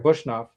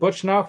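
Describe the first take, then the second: First: The middle consonant is an 'sh' sound. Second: The middle consonant is a 'ch' sound. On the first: The speaker calls it wrong. "It's not an S H" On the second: The speaker calls it right. "I always want to say Butchnoff"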